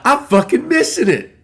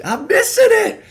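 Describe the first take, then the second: First: Higher, louder, mock-angry cry; frustrated outburst. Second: Much higher, louder whine with a laugh through it; laughing frustration. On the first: Fan realizes he is missing the speech, in a higher mock-angry outburst. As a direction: blurt it out, fed up at missing the moment. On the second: Retold or imitated. Fan laughs at himself for missing the speech, wailing much higher. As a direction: wail it half laughing at yourself. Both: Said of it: "I get all pissed".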